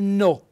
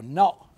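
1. La vocale si pronuncia con la o chiusa. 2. La vocale si pronuncia con la o aperta. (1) "È importante metterci l'accento fonico chiuso" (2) "noi siamo abituati a pronunciarlo no"

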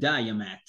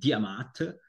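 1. Si pronuncia all'inglese. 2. Si pronuncia alla tedesca. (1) "gli inglesi dicono il diamat" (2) "i tedeschi diamat"

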